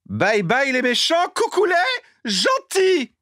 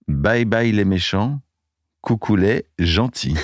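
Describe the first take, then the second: First: It is said in a put-on character voice. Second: It is said in an ordinary speaking voice.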